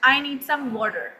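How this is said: It is said in an American accent. "American कहते हैं सिर्फ water"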